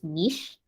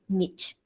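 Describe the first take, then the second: First: It is said with a British pronunciation. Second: It is said with an American pronunciation. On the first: "the U K English pronunciation is niche" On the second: "The U S English pronunciation is niche"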